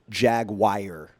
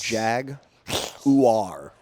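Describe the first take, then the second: First: Jaguar is said with a Southern pronunciation. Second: Jaguar is said with a standard pronunciation. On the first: The speaker calls it wrong. "is what I grew up thinking" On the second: The speaker calls it right. "It's not. No, it's a jaguar"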